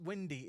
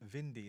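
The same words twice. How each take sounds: First: The word begins with a W sound. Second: The word begins with a V sound. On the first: "It's not windy in German" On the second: "if it's a W, you pronounce it as a long V"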